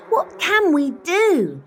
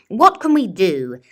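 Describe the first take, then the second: First: High, loud desperate cry; villagers crying out. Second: Louder, commanding question to the hall; a mayor putting the question to the meeting; mayor asking. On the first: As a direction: cry out for help as a whole village. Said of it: "till the villagers cried". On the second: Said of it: "Mayor Muddlenut asked them all". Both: A narrator's reading.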